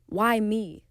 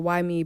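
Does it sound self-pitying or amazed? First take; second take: amazed; self-pitying. First: It sounds amazed and grateful. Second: It sounds self-pitying and sorry.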